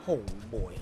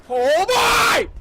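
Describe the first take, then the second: First: Very low, soft murmur of dread. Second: Very high, loud shriek; terrified scream. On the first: Gamer sensing trouble ahead, low uneasy aside. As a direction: say it deep and small. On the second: Gamer hit by a scare, terrified scream. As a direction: scream it in sudden fright. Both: Real, not acted.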